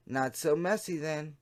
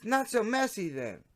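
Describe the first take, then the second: First: Said in the usual way. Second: Lightly voiced teen girl, much higher; young girl chat voice. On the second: Shown as a demonstration. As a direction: read it higher, as the teen decoy. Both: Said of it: "Wait, wrong voice".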